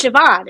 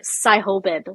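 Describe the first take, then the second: First: SIOBHAN said "shuh-VAWN"; correct Irish pronunciation. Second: SIHOBIN sounded out letter by letter, "sigh-ho-bin"; phonetic spelling pronunciation. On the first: Confirming the Irish name to a friend, SIOBHAN pronounced "shuh-VAWN". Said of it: "it looks like Sihobin". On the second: Showing a friend how the Irish name looks, SIHOBIN read phonetically as "sigh-ho-bin". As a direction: read SIHOBIN exactly as spelt, B included. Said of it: "like, phonetically". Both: Shown as a demonstration.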